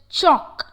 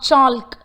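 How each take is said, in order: First: The L sound is silent. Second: The L sound is pronounced. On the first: The speaker calls it right. "it is unheard. It is just chalk" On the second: The speaker calls it wrong. "not chalk"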